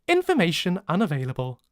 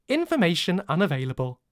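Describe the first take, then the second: The two takes are said the same way.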